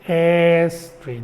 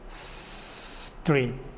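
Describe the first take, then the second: First: An extra vowel comes before the s. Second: The word starts directly with the s. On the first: The speaker calls it wrong. "Avoid saying a street" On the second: The speaker calls it right. "No, street"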